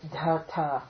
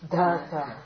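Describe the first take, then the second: First: The second consonant also carries aspiration. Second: The second consonant is said without aspiration. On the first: The speaker calls it wrong. "the aspiration will carry over, and you get da-ta" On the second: The speaker calls it right. "You have to keep word da-ta"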